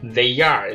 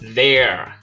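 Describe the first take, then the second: First: Both words are said fully and separately. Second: The two words merge into one syllable. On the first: "maneira normal" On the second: "maneira contraída"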